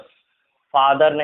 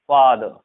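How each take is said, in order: First: The final r sound is pronounced. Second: The final r sound is dropped. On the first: The speaker calls it wrong. "फादर नहीं" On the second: The speaker calls it right. "र की जगह अ लगाएंगे"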